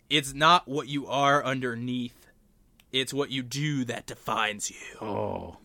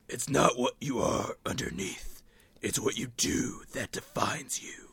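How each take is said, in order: First: It is said in an ordinary speaking voice. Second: It is said in a deep, gravelly put-on voice.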